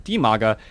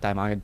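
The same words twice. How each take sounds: First: The corrected Dimaga, starting like "dee"; correct pronunciation. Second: The slip, Dimaga starting like "dime"; wrong pronunciation. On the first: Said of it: "I sometimes remember his name is". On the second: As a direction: say Dimaga as "DIE-mah-ga". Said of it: "sometimes it just slips out the other way". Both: Shown as a demonstration.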